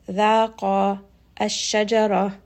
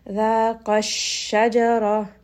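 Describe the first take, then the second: First: ذَاقَ with its final vowel held long, then الشَّجَرَةَ apart; separated, two-count madd. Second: ذَاقَ pressed slightly where it runs into الشَّجَرَةَ; nabr emphasis. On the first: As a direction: hold the end of ذَاقَ two counts before starting الشَّجَرَةَ. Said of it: "So this is a two count mad". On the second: Teacher repeating the nabr, ذَاقَ الشَّجَرَةَ emphasised at the join. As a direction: raise the voice a touch on the end of ذَاقَ, joined to الشَّجَرَةَ. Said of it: "I'm raising the voice just a little bit". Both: Shown as a demonstration.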